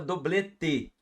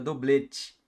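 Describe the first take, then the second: First: The t is a plain, hard t sound. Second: The t sounds like a 'ch' sound. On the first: "é o T com, como costuma falar o nordestino" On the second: "no sotaque carioca, seria doblete. Mas esse t é o som do C H"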